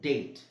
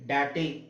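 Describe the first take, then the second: First: The final e is silent. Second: The final e is pronounced as a vowel. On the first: The speaker calls it right. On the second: The speaker calls it wrong. "ಡ್ಯಾಟೆ ಆಗುತ್ತಾ? ಇಲ್ಲ"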